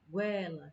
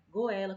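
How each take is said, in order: First: The vowels run together in one syllable. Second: The vowels are split into separate syllables. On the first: The speaker calls it right. "mas o certo é goela" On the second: The speaker calls it wrong. "como se separasse assim, as sílabas"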